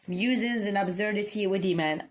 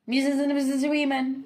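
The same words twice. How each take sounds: First: The phrase is said at an ordinary pace. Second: The phrase is said very quickly.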